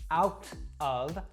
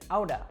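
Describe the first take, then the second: First: The middle T is a crisp, clear T. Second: The middle T is a quick D-like flap. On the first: "I didn't say out of" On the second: "That T sound in the middle actually warps to kind of a D sound"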